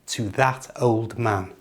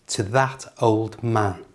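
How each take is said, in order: The two takes are said the same way.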